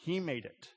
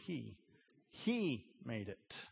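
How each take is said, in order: First: The word made is stressed. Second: The word he is stressed. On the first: The act of making sets God apart from the world. "the emphasis in the original quote is on the word made" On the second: The maker himself is tied to the world. "the emphasis is on the word he"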